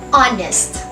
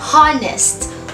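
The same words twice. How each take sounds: First: The word begins directly with a vowel sound. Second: The word begins with an audible h sound. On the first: The speaker calls it right. "We pronounce it as honest, having the initial sound of a vowel" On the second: The speaker calls it wrong. "this word is not pronounced as honest"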